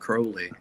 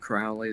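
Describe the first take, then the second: First: The first vowel rhymes with 'crow'. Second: The first vowel rhymes with 'foul'. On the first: This is what people who know him call him. The speaker calls it right. "Those who know me call me Crowley" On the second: This is what people who mistreat him call him. The speaker calls it wrong. "They treat me foully who call me Crowley"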